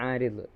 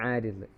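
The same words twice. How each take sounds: The two takes are said the same way.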